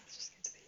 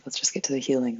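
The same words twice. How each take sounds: First: Rushed, breathy whisper with a giggle; fast whisper. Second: Said in the usual way. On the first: Pretend. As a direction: whisper it quickly like a secret. Repeats line then whispers it.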